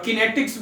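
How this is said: It is pronounced the foreign way. "फॉरेनर pronunciation में"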